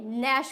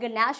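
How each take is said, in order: First: The word begins directly with the n sound. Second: A g sound is pronounced before the n. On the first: The speaker calls it right. "ये नैश होता है। जी होगा इसमें silent" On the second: The speaker calls it wrong. "ये क्या गनैश होगा? नहीं"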